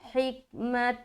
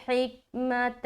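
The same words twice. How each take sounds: The two takes are said the same way.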